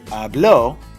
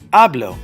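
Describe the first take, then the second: First: The stress is on the last syllable. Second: The stress is on the first syllable. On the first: He or she spoke. "raise the voice on the last syllable" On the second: I speak. "the raise of my voice is on the second to the last"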